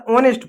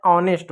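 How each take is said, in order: First: HONEST read as ऑनेस्ट with the H sounded; wrong pronunciation. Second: ऑनेस्ट begun on an open "aw", no H; silent H. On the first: Teacher mimics pupils' habit, mispronounced with a sounded H. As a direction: voice the H at the start of ऑनेस्ट. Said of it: "अरे ऑनेस्ट नहीं होता है". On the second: Teacher corrects pupils, saying it with silent H. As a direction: drop the H from ऑनेस्ट. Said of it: "एच silent होता है". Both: Shown as a demonstration.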